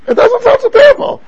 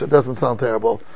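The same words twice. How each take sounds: First: High, loud mock disbelief; incredulous rhetorical outburst; rhetorical shout. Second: Quiet answer. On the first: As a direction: throw it out loud to the class, much higher. Rhetorical challenge to the class. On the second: Answering his own rhetorical question. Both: Real, not acted.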